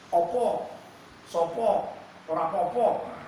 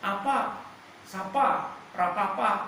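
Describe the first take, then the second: First: It uses the Pekalongan Javanese dialect. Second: It uses the Tegal Javanese dialect.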